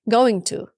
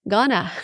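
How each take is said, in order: First: Both words are said fully and separately. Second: The words are squeezed into one short form. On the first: The speaker calls it wrong. "you still sometimes say going to. No" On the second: The speaker calls it right. "That's the right way to say it"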